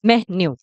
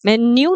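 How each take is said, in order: First: मेन्यू said lower with a breathy meh-nyoo; मेन्यू dropped low, meh-nyoo; corrected मेन्यू, low and falling; correct pronunciation. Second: मेन्यू said plainly as men-yoo; the rejected मेन्यू, light and level; मेन्यू as the wrong version; wrong pronunciation. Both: Shown as a demonstration. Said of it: "मेन्यू नहीं".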